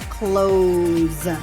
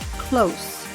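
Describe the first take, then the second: First: The word ends with a buzzing Z sound. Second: The word ends with a hissing S sound. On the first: It is the verb meaning to shut. "And the verb has a Z sound" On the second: It is the adjective meaning near. "It's an S sound"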